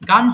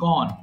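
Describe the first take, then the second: First: The vowel is an open 'a' sound. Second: The vowel is a rounded 'o' sound. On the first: The speaker calls it wrong. "গান হবে না" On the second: The speaker calls it right. "উচ্চারণ হবে গন"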